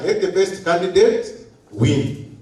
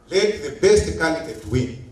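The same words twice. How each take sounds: First: Slow, weighty stress on every word of "let the best candidate win"; emphatic restatement. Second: Said in the usual way. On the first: Shown as a demonstration. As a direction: lean hard on "let" and press each word of "let the best candidate win" like a decree. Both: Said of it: "And I emphasize and underline".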